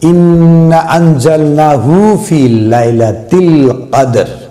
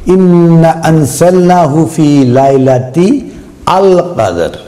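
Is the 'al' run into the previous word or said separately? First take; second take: run together; separately. First: The article is run into the previous word. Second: The article is said as a separate word. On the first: The speaker calls it wrong. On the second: The speaker calls it right.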